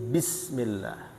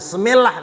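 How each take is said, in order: First: The opening b sound is clearly pronounced. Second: The opening b sound is dropped. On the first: The speaker calls it right. "Jadi ba-nya itu diucapkan" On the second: The speaker calls it wrong. "Ba-nya hilang"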